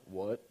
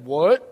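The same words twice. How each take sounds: First: Low, held-back dad voice; imitated dad's voice. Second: Loud imitation of an angry dad; dad's startled "What?". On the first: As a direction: drop it deep like an ominous father. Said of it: "And then the house shook". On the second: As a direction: boom it out as dad overhearing. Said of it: "No, that wasn't it".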